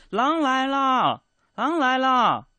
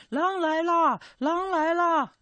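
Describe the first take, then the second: First: Slow, loud and much higher call; shouting. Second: Softer shout. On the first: Shepherd boy calling to the villagers, slow loud shout. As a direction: yell it slowly down the hill. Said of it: "他向山下大声喊". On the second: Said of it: "我小点声喊啊". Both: Retold or imitated.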